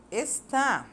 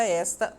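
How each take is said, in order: First: "está" stressed on final TÁ; "está" set apart, higher, as es-TÁ; stress on last syllable. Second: "esta" stressed on ES, open e; "esta" as ES-ta, weak final syllable; stress on first syllable. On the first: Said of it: "a sílaba forte dela é a última". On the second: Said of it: "a sílaba mais forte é o es". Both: Shown as a demonstration.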